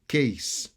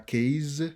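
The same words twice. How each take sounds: First: The word ends in a clear s sound. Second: The word does not end in an s sound. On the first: The speaker calls it right. "on son S" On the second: The speaker calls it wrong. "C'est pas case"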